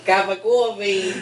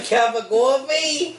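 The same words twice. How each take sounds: First: Put-on slow Boston accent, falling; Boston accent, flat statement. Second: Put-on slow, high Boston accent question. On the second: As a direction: drawl the Boston question slowly. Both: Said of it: "the worst Boston accent".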